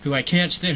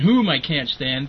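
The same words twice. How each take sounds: First: Said in the usual way. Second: Slow correction leaning hard on "whom"; stress on whom. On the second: Shown as a demonstration. Correcting himself to "whom" on the podcast, slow and stressed. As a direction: drag out "whom" as the pointed fix.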